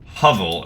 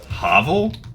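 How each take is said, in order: First: The word rhymes with shovel. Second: The word does not rhyme with shovel. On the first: Someone else said it this way. "as that person called it" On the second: This is how the speaker has always said it. "I've always pronounced it as hovel"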